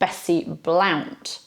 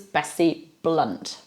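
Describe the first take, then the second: First: Blount has the vowel of count. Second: Blount has the vowel of hunt. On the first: The speaker calls it wrong. "Well, no" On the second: The speaker calls it right. "That's how that's pronounced"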